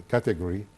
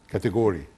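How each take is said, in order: No difference in how they are said.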